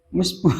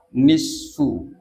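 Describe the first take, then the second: First: It begins with m and has a p sound. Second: It begins with n and has an f sound. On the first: The speaker calls it wrong. "ada pengucapan yang salah" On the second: The speaker calls it right. "Yang benar adalah nisfu"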